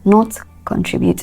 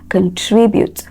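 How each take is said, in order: First: The stress is not on the second syllable. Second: The stress is on the second syllable. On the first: The speaker calls it wrong. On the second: The speaker calls it right. "it is tree. So it is the second syllable"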